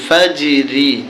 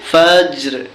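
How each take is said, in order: First: The word ends with a short i vowel. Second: The word ends on a bare r sound. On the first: The reading continues without stopping. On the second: The reader stops at the end of the verse.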